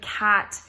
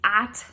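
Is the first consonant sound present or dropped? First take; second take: present; dropped. First: The word begins with a clear k sound. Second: The opening k sound is left out. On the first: The speaker calls it right. "instead of cat" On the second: The speaker calls it wrong. "he'll almost drop the C completely"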